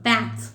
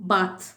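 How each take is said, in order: First: It is said with an American English vowel. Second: It is said with a British English vowel. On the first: "American English எப்படி சொல்லுவாங்கன்னா" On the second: "நான் first read பண்ணுறது எல்லாமே British"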